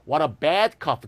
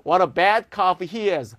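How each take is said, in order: First: Said in the usual way. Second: Slow, scornful, leaning on bad; disgusted exclamation. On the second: Shown as a demonstration. Teacher demonstrating contempt in an example, slow and scornful. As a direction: sneer at how bad he is. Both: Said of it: "기쁜 게 아니네요".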